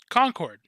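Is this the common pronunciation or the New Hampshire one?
common. It uses the pronunciation common outside New Hampshire. This is how most people outside the state say it. "everybody I've ever asked pronounces that as as Concord"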